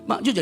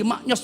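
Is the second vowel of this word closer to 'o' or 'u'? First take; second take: u; o. First: The second vowel sounds like 'u'. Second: The second vowel sounds like 'o'. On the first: This is the original Javanese form. "itu bahasa Jawa kan maknyus" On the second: This is how people outside Java say it. "di luar pulau Jawa jadi maknyos"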